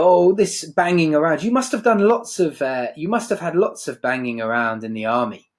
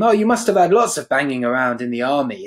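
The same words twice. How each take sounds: First: Higher, airy mock patronising. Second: Patronising. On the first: Blanche mocking Stanley's army past, lightly patronising. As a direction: talk down to him like a child. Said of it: "so patronising". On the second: Retold or imitated. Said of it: "as if it was almost like a childish game".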